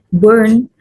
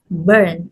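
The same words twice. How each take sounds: First: Burn louder, with an oo-like vowel; mispronounced. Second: Burn with an er vowel; correct pronunciation. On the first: Retold or imitated. Teacher showing unclear articulation, burn mispronounced. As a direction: say burn as a rising BOORN. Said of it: "articulated as". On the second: Shown as a demonstration. Teacher giving the correct form, burn correctly pronounced. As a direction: say burn as BERN. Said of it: "the correct form is".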